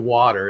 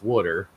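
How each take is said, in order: First: It is said in a standard American accent. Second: It is said in a Philadelphia accent. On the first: "I don't say water" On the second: "it's water"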